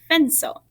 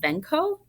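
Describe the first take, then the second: First: The consonant before the final o is soft. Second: The consonant before the final o is a hard k. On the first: The speaker calls it right. "we're going to want to maintain that sound" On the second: The speaker calls it wrong. "if we left it a C, we would pronounce that venco"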